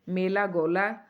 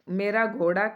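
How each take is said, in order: First: The r and ड़ sounds are lisped as l. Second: The r and ड़ sounds are said clearly.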